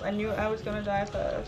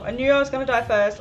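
First: Said in the usual way. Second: Fast, loud wail of dismay; loud dismayed outburst. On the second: Real, not acted. Player dying first in the game, loud dismayed outburst. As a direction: blurt it out loudly in defeat.

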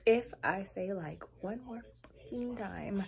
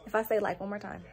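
First: Soft, slowed-down warning to oneself; slow, measured exasperation. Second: Said in the usual way. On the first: Real, not acted. Vlogger warning herself about saying like, slow exasperation. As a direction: space out "one more fucking time" slowly and quietly. Repeats the warning with added swear.

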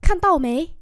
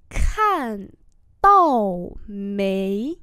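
First: Said in the usual way. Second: Slow, separated syllables; syllable-by-syllable model; slow demonstration. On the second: Shown as a demonstration. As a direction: stretch each tone for learners. Teacher repeats slowly for learners.

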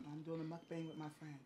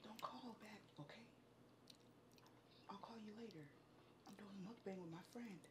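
First: Quiet. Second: Hushed whisper into the phone. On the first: Talking on phone near partner. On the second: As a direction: whisper so nobody overhears. Hushed phone call, partner nearby. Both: Real, not acted.

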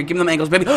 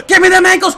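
First: Said in the usual way. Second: Loud, high hype yell; excited shout. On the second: Real, not acted. Gamer urging Todd through tackles, excited shout. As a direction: shout it high with a burst of thrill.

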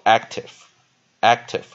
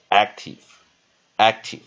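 First: "active" slow and louder, ending in -tev; alternative e ending. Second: "active" slowly, ending in -tiv; first syllable stressed, "active" as AK-tiv; short i ending. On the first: Teacher drilling the other option, "active" slowly with an e ending. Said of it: "可以念active或active都可以". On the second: Teacher drilling the first option, "active" slowly with an i ending. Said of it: "A念E". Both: Shown as a demonstration.

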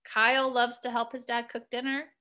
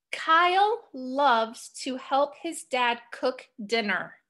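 First: Quicker, rising question tune; "Kyle loves to help his dad cook dinner" with pitch rising at the end; turned into question. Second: Slow, falling statement tune; "Kyle loves to help his dad cook dinner" said slowly, ending down like a period; telling statement. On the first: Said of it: "Am I asking you a question?". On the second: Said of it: "I'm just telling you something". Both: Shown as a demonstration.

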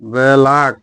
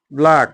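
First: "ব্ল্যাক" stretched into two syllables, be-lak; "ব্ল্যাক" drawn out with a vowel between b and l; sounded out. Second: Said in the usual way. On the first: Shown as a demonstration. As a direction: split "ব্ল্যাক" slowly as be-lak. Sounds word out before spelling it.

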